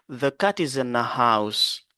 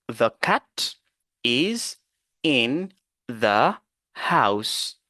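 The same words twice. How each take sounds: First: The words are linked smoothly into one flow. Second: Each word is said separately, without linking. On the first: "Nous allons appliquer la liaison" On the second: "nous allons lire les phrases mot par mot"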